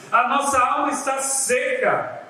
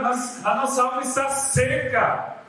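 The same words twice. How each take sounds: First: A theatrical, pitiful moan, pitched high; milk the drama of the complaint; mock dramatic whine. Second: Hammed-up pitiful complaint, pitched higher; mock dramatic whine. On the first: Preacher mocks the people's complaint in a pitched-up, theatrical moan. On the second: The people complaining to Moses about their dry souls, hammed-up whine. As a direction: play up the people's whining drama. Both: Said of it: "o drama".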